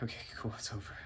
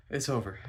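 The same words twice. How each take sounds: First: Understated relief. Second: Said in the usual way. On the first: Retold or imitated. Walking away from her, quietly relieved. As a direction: say it softly to yourself.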